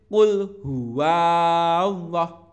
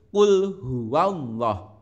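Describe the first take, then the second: First: The vowel in 'wa' is held long. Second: The vowel in 'wa' is short, one beat. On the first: The speaker calls it wrong. "tidak boleh" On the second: The speaker calls it right. "Wa-nya ini hanya satu ketukan atau dibaca pendek"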